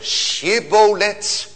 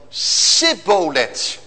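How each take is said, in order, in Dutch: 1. Het woord begint met een sh-klank. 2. Het woord begint met een s-klank. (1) "die CH-klank" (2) "kon een Efraïmiet niets anders zeggen dan Sibboleth"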